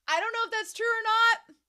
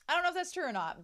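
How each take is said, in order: First: High, loud disclaimer; high-pitched doubt. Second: Said in the usual way. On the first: Real, not acted. Eldest sibling doubting a magazine claim, high and loud.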